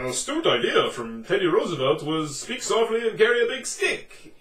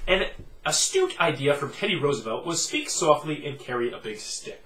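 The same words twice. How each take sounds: First: It is read in an attempted Minnesota accent. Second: It is read in the speaker's ordinary voice. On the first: "I need to say this in a Minnesota accent" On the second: "I would just read that quotation in my normal voice"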